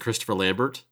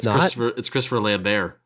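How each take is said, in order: First: The final T of the surname is pronounced. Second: The final T of the surname is silent. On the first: The speaker calls it wrong. "his name isn't" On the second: The speaker calls it right. "The T is silent"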